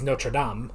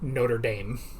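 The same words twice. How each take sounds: First: It is said with a French pronunciation. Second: It is said with an American pronunciation. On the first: It names the cathedral. "the very famous cathedral" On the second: It names the American team. "in America we have a team of Notre Dame"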